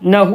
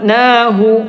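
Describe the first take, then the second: First: The first vowel is short, not lengthened. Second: The first vowel is lengthened a little. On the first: The speaker calls it wrong. "നഹു എന്നല്ല" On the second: The speaker calls it right. "നീട്ടാതിരിക്കാനും പറ്റൂല"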